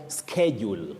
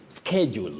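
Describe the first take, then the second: First: The word begins with an sk sound. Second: The word begins with an sk sound.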